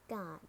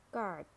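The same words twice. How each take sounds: First: "God" as British guard, silent R; British "God", long ah, said gahd; British accent. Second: "Guard" with a sounded American R; American "Guard", curl the R before d; American accent. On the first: Teacher models guard for learners, British accent. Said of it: "in British English". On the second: Teacher models guard for learners, American accent. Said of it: "R in American English". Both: Shown as a demonstration.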